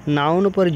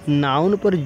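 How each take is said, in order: Both takes have the same delivery.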